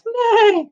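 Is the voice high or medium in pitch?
high. It is said in a high voice.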